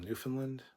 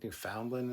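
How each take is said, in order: First: Newfoundland as NEW-fun-lund; common Newfoundland. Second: Newfoundland as new-FOUND-lund; locals' Newfoundland. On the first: Streamer giving the common version, Newfoundland with a shrunk middle. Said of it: "a lot of people call them". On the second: Streamer giving the preferred version, Newfoundland with a full "found". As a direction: sound out "found" fully in Newfoundland. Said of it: "is what they prefer". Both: Shown as a demonstration.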